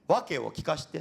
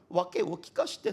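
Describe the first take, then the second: First: It uses the Kanto (Tokyo-area) pitch pattern. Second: It uses the Osaka (Kansai) pitch pattern. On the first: "関東弁だとね訳を聞かしてっていうはずなんですね" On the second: "関西大阪のイントネーションですから訳を聞かしてというふうになっております"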